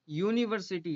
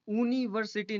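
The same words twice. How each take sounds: First: The word begins with a y sound, yoo. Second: The word begins with a plain oo sound. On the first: The speaker calls it right. "यूनिवर्सिटी है, by यू है" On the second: The speaker calls it wrong. "इसमें यूनिवर्सिटी नहीं है"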